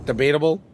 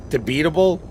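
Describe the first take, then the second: No difference in how they are said.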